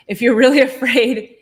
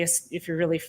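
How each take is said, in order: First: Self-correcting with a laugh, louder; really said louder with a laugh before afraid; laughing through the word. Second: Said in the usual way. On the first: Real, not acted. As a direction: laugh mid-phrase as you swap the word. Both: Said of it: "I almost said scared".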